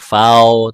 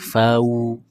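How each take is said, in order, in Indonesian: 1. Diftong berakhir terbuka, tidak membulat ke arah u. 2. Diftong berakhir membulat, ke arah bunyi u. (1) "bukan fau" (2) "usahakan bunyinya u semua"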